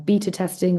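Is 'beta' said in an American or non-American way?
non-American. Beta is said in a non-American way.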